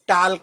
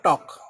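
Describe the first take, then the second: First: The L sound is pronounced. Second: The L sound is silent. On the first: The speaker calls it wrong. "वो गलत है, टाल्क नहीं" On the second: The speaker calls it right. "बोलने में नहीं आता"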